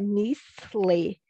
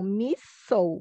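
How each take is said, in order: First: The L is pronounced as a clear L. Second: The L sounds like an 'oo' vowel. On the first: The speaker calls it wrong. "não é misle" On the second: The speaker calls it right. "o L E como som de ou"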